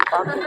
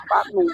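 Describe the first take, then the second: First: Said in the usual way. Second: Panu squeaked much higher through a laugh. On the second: Shown as a demonstration. Preacher mocking the excuse panu, laughing high.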